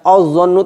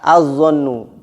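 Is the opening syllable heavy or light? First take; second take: heavy; light. First: The opening syllable is pronounced thick and heavy. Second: The opening syllable is pronounced thin and light. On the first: The speaker calls it wrong. "tidak boleh dibaca" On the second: The speaker calls it right. "tetap tipis"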